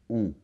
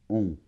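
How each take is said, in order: Both takes have the same delivery.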